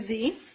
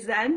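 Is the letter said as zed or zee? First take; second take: zee; zed. First: It is said the American way, as zee. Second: It is said the Canadian way, as zed.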